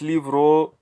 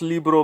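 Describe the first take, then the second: First: The b is soft, close to a v. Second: The b is a hard, full b sound. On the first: The speaker calls it right. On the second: The speaker calls it wrong. "it's not"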